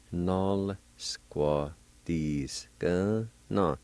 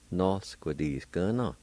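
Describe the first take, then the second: First: NOL SQUADISKA NO in slow, separated syllables. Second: Said in the usual way. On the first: Shown as a demonstration. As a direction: pause after each syllable of "Nol squadiska. No.". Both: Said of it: "pronounce the L sound".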